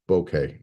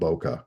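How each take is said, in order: First: The word does not sound like 'Boca'. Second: The word sounds like the city name 'Boca'. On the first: The speaker calls it right. "a correct pronunciation of that word is bokeh" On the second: The speaker calls it wrong. "not bokeh. Uh, Boca is a city in Florida"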